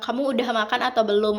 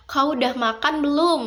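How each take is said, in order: First: Said in the usual way. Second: Lightly imitating a Pontianak accent, higher pitched. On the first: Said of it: "kalau mau bilang". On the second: Teacher imitates how a Pontianak speaker asks, light Pontianak accent. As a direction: ask "Kau udah makan belum?" the Pontianak way, pitch lifted. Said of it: "Orang Pontianak itu bilang".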